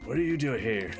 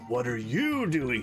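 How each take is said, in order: First: It sounds timid and unsure. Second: It sounds bold and confident.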